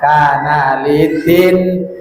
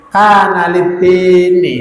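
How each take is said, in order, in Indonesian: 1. Kata kedua diakhiri dengan bunyi n yang tertutup. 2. Kata kedua diakhiri dengan vokal i. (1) "jangan kana litin. Enggak boleh" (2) "Nunnya di kasroh, tidak boleh sukun"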